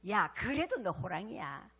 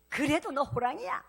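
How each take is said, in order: First: Slow, steady "그래도" falling, a calm mother; lightly voiced mother soothing her cub, "그래도" leaning down; understated mother's reassurance, "그래도" falling gently; mother reassuring calmly. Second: "그래도" pushed up and rising, a more insistent mother; lightly voiced mother losing patience, louder; mother repeats it firmer, "그래도" rising; mother insisting louder. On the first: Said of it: "엄마한테 물어봤어". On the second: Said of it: "엄마, 나 누구야?".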